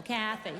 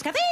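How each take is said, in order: First: Kathy with the stress on the first syllable, KA-thy. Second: Kathy said louder with a rising, laughing pitch; the mistaken Kathy, pitched up and questioning; wrong stress. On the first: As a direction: say Kathy leaning on KA, falling at the end. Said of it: "the emphasis is on the first syllable". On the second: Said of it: "I was thinking it was Kathy". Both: Shown as a demonstration.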